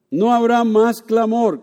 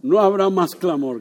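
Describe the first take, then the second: First: Slow, loud preached line; louder slow proclamation; preaching. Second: Said in the usual way. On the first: Shown as a demonstration. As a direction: proclaim it slowly from the pulpit. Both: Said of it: "No habrá más clamor, gracias".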